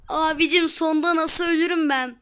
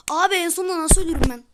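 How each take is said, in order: First: Loud complaint through a laugh; amused gamer giggling at his own fail; laughing disbelief. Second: Loud, fast frustrated complaint; annoyed gamer blurting it out quickly; exasperated outcry. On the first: Laughs after dying again. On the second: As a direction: rant at dying right at the end. Dies at the end of course. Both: Real, not acted.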